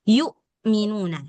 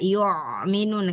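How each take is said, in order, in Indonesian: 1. Hamzah adalah hentian yang bersih dan tertutup penuh. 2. Hamzah terdengar seperti ain yang berat di tenggorokan. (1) "Jadi hamzah matikan dia total" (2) "tadi tuh hamzahnya sudah mirip ain ya"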